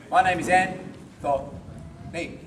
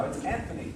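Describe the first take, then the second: First: Anthony broken into separate, drawn-out syllables; pauses between syllables. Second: Said in the usual way. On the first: Shown as a demonstration. Teacher mocking a paused word with own name, Anthony split. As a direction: slowly split Anthony up with gaps. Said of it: "without a pause". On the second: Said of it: "All syllables without a pause".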